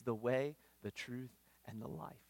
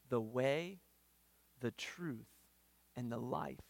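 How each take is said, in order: First: Said in the usual way. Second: Long pauses between "the way", "the truth", "and the life"; paused, solemn phrasing. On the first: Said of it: "quick restatement". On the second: Shown as a demonstration. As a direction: give each of "the way", "the truth", "and the life" its own beat. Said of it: "slow, pause-divided recitation".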